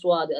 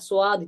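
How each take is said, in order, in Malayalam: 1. ചുണ്ടുകൾ വൃത്താകൃതിയിൽ മുന്നോട്ട് തള്ളിയാണ് ഇത് പറയുന്നത്. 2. സാധാരണ, നിഷ്പക്ഷമായ ചുണ്ടുകളോടെയാണ് ഇത് പറയുന്നത്. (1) "ചുണ്ട് മുന്നോട്ട് വെച്ചിട്ട്" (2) "ചുണ്ട് നേരെ സാധാരണ രൂപത്തിൽ നിൽക്കുക"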